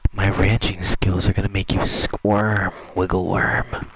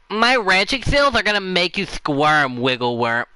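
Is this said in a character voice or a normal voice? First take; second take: character voice; normal voice. First: It is read in a put-on character voice. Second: It is read in an ordinary speaking voice.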